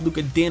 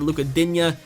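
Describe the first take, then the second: First: The surname ends in a plain n sound. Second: The surname ends in an added nya sound. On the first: This is believed to be the actual pronunciation. "I believe it's actually pronounced Din" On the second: This is the pronunciation the viewers prefer. "as you guys want me to pronounce it"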